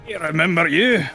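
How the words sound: It is spoken in a Scottish accent. The speaker calls it wrong. "no, that's that's Scott"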